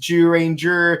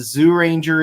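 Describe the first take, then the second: First: The name begins with a J sound. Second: The name begins with a Z sound. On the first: "turning into J's" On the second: "Z's and Common Rider turning into J's"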